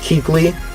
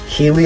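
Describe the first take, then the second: First: The name has a k sound before the l. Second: The name has no k sound before the l. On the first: The speaker calls it right. "It's Keekly, obviously" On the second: The speaker calls it wrong. "you probably noticed I said Keely a lot"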